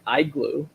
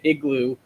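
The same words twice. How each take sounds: First: The first vowel sounds like 'eye'. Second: The first vowel sounds like 'ih'. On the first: The speaker calls it wrong. "I never usually say I when a word starts with I" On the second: The speaker calls it right. "Like when I look at igloo"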